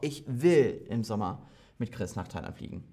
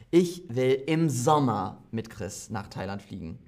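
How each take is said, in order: First: The word "will" carries the main stress. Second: The word "Sommer" carries the main stress. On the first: The speaker does want to go, despite doubts. "Willst du nicht nach Thailand? Doch" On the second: The trip is in summer, not winter. "Manche fliegen im Winter, aber ich will im Sommer dorthin"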